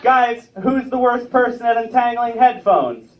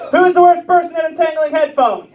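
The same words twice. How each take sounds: First: Said in the usual way. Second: High, raised-voice demand to the crowd; insistent joke setup. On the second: Real, not acted. Comedian re-asks the crowd his riddle, insistent raised voice. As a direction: call it out higher, pushing for a response.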